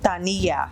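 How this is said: The word is said in a Spanish accent. "do I say this in a Spanish accent?"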